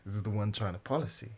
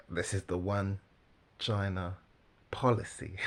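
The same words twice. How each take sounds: First: Said in the usual way. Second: "This is the one China policy" in separate, firm chunks; deliberate retry. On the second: Real, not acted. Commentator retries the line after stumbling, deliberate and emphatic. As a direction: pause before "China" and before "policy", landing each clearly.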